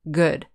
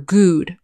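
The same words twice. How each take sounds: First: The vowel is short and clipped. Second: The vowel is long, like in moon. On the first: The speaker calls it right. "We say ... good ... The vowel sound is shorter" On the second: The speaker calls it wrong. "We don't say ... good"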